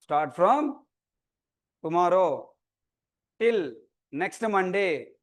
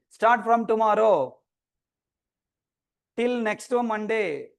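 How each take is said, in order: First: Broken up with long pauses; piece-by-piece dictation. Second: Slow, stretched words, slightly raised; drawn-out announcement. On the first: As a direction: repeat it in small chunks, pausing after each. Repeats dates piece by piece. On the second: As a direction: announce the dates slowly, drawing out each word. Announces online class dates slowly. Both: Real, not acted.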